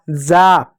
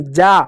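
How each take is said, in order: First: जा slipped into "zaa"; जा with z instead of j; mistaken z sound. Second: जा as "jaa"; जा with j, not z; corrected j sound. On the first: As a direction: start जा on a buzzing z. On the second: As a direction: start जा on a clean j. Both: Shown as a demonstration. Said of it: "जा नहीं".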